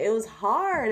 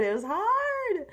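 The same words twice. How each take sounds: First: Said in the usual way. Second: High-pitched whine. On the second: Real, not acted. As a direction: repeat it in a high, stretched-out squeal of complaint. Repeats it to excuse her attempt.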